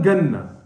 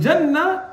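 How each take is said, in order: First: The word begins with a hard G sound. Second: The word begins with a J sound. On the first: The speaker calls it wrong. "it would become Ganna" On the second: The speaker calls it right. "with Jannah"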